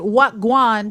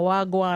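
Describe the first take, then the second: First: It starts with a distinct, separate word what. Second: The syllables glide smoothly into one word. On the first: The speaker calls it wrong. "don't say what guan" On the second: The speaker calls it right. "I got it now"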